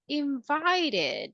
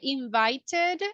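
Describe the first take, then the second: First: The middle consonant is a soft R-like tap. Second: The middle consonant is a clear T sound. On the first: "or we can say invited" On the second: "we can say invited"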